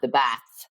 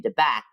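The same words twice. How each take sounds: First: It is said with a standard 'th' sound. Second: It is said in a Kildare accent.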